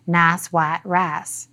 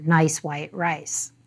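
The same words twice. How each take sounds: First: Appalachian accent. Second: Said in the usual way. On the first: Shown as a demonstration. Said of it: "stereotype a strong Appalachian accent with phrases like".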